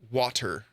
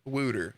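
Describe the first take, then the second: First: The first vowel sounds like the one in 'wah'. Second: The first vowel sounds like the one in 'wood'. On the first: The speaker calls it right. "It's water" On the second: The speaker calls it wrong. "the word wooter"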